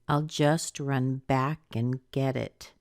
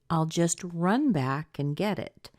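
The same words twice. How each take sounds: First: The word back carries the strongest stress. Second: The word run carries the strongest stress. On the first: The focus is on returning to the place. "I've been stressing this back" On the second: The focus is on the action of going. "Run back could be stressed too"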